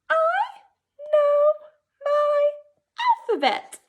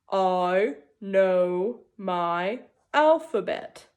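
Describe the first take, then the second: First: It is said in a high voice. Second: It is said in a deep voice.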